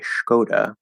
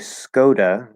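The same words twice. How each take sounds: First: The name begins with an SH sound. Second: The name begins with a plain S sound. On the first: "change it into an S H, which is probably wrong, and say Skoda" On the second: "obviously there's an S. So I might say Skoda"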